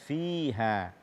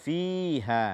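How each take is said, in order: The two takes are said the same way.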